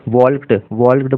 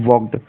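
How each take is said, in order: First: वॉल्क्ड with the L wrongly sounded; mispronounced walked. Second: वॉक्ड with a silent L; correct walked pronunciation. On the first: Teacher showing students' common mistake, वॉल्क्ड said with the L sounded. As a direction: say वॉल्क्ड with an audible L before the k. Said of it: "जो कि गलत है". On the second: Teacher correcting students, वॉक्ड said with the L left silent. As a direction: say वॉक्ड with the vowel straight into k, no L. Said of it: "इसका सही pronunciation है". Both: Shown as a demonstration.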